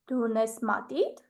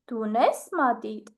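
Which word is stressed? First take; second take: matit; unes. First: The stress is on the word matit. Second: The stress is on the word unes. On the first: Asks whether you have a pencil or a pen. "I will put the stress on the word pencil" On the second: Asks whether you have a pencil or not. "I will stress the word have"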